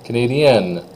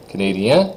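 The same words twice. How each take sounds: First: Falling canadienne with clear N; N sounded. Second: Rising canadien, N dropped; silent N. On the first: Teacher leads students in repeating, canadienne with N. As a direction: end canadienne firmly on N. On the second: Teacher leads students in repeating, canadien without N. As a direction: leave canadien open for repetition. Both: Shown as a demonstration. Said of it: "just say them with me here".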